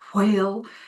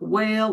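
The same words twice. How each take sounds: First: The start has a breathy h before w. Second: The start is a plain w without breath. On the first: The speaker calls it right. "You must aspirate your H's" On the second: The speaker calls it wrong. "so it's not whale"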